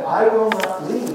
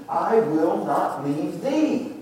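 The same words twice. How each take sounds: First: "leave" as the emphasized word, pitched up; stress on LEAVE. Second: Slow line with "thee" drawn out as the key word; stress on THEE. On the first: Preacher showing the congregation Elisha would not leave, stress on "leave". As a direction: lean firmly on "leave" to end the line. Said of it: "When we emphasize he would not leave". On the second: Preacher showing the congregation whom Elisha stays with, stress on "thee". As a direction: stretch the last word, "thee", for emphasis. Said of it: "now we emphasize the last word". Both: Shown as a demonstration.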